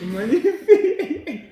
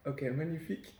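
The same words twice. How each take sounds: First: Very high, loud, drawn-out cheer; mock rapture. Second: Said in the usual way. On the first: Host praising friend's accent, hammed-up rapture. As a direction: stretch it out in over-the-top mock admiration.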